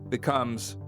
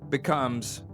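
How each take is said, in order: The two takes are said the same way.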